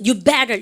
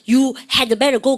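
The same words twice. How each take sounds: First: "had" dropped, "You better" run together; reduced HAD. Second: "had" said in full, heavy and separate; fully pronounced HAD. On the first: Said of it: "리듬 좀 있어요". ("had"를 줄여 "You better"로 리듬 있게) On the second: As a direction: spell out "You had better" without reducing "had". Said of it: "그렇게 크게 얘기하지 않습니다". ("had"를 줄이지 않고 크게 또박또박) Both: Shown as a demonstration.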